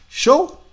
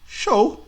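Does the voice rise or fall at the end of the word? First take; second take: rise; fall. First: The pitch rises at the end like a question. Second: The pitch falls at the end like an answer. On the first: It asks whether the other person wants to go. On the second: It answers yes.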